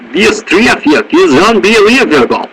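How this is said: It is said in an exaggerated Russian accent. "you stick Y's in everything"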